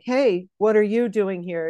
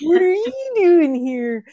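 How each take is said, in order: First: It is said in a plain, dramatic soap-opera voice. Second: It is said in a Valley accent, rising.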